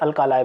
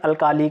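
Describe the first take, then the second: First: The last syllable sounds like 'lie'. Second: The last syllable sounds like 'lee'. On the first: The speaker calls it right. "जो इसका real pronunciation है उसे अल्कालाई बोलते हैं" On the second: The speaker calls it wrong. "कई लोग इसका pronunciation अल्काली करते हैं"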